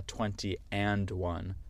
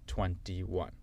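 First: Twenty and one, the AND sounded in full; twenty and one, word by word; wrong form with and. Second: Said in the usual way. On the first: Shown as a demonstration. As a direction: put a separate and into twenty and one. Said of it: "C'est pas twenty and one". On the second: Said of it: "C'est twenty-one".

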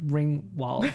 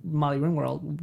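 First: Ringwald with a drawn-out New York vowel, Ringwald said like a New Yorker; New York accent. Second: Said in the usual way. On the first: Shown as a demonstration. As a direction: Ringwald em sotaque nova-iorquino. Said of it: "that's my New York accent, you hear it?". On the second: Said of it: "that's my New York accent".

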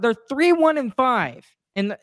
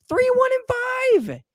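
First: Said in the usual way. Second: Much higher, slow, shouted in real frustration; exasperated shout. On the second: Real, not acted. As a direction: yell the record out in disbelief. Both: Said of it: "I'm so frustrated".

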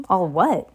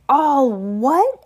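First: Said in the usual way. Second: Loud, high outraged echo; thundering. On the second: A narrator's reading. Giant outraged at the boy's ignorance, thundering. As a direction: thunder it back as a rising question. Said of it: "Hagrid thundered".

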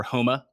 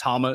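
First: "Homa" said the way the tour corrected it; corrected pronunciation. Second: "Homa" said the speaker's uncorrected way; mispronounced name. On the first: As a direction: restate "Homa" as a careful self-correction. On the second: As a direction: say "Homa" in the habitual, mistaken pronunciation. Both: Shown as a demonstration. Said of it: "corrected me on that pronunciation".

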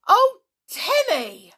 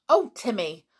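First: High, loud, drawn-out cry; distressed yell. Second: Mildly exasperated, raised voice; mild exclamation. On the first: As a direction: yell at the dog in dismay. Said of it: "yelled George in distress". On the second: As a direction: chide the dog lightly. Relenting to the fawning dog. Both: A narrator's reading.

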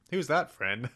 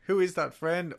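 First: Lightly voiced toddler; a hint of a kid asking; child voice. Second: Put-on high little kid voice; child voice. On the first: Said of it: "Or does he refer". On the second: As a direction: play the toddler asking. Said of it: "was it".

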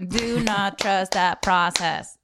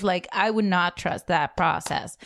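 First: "Do not trust that process" with each word punched, slow; clapping on every word. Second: Each word hit separately, slow; clapping on every word. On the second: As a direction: punch every word like a clap. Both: Shown as a demonstration. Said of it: "I'm clapping after every word".

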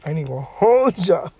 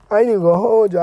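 First: Said in the usual way. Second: Louder, more insistent repeat; emphatic. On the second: Real, not acted. Podcaster admitting his sushi craving, emphatic. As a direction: push it harder the second time.

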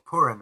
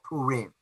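First: Purim said "POOR-im", stress up front; short, light "im" ending on Purim. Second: Purim said "poo-REEM", long ee in the last syllable. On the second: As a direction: draw out the end of Purim as "reem". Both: Shown as a demonstration.

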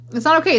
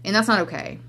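First: "okay" höher und lauter betont, fallend; emphatic repeat. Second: Said in the usual way. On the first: Real, not acted. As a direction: hammer "It's not okay" home, higher and louder.

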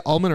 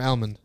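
First: Almond said as "AHL-mund"; almond starting like "all". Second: Almond said as "AL-mund"; almond with the a of cat; almond with short a. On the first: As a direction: say almond with an open ah. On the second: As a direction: say almond starting like the name Al. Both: Shown as a demonstration. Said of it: "you say almond or almond".

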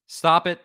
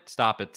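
First: Firm stop. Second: Said in the usual way. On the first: Real, not acted.

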